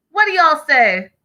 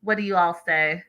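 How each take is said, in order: First: Higher, louder, rallying the viewers; eager repeat to chat. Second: Said in the usual way. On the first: Real, not acted. Host rallying her live chat, higher and louder. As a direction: call out to the chat again, pushing for answers.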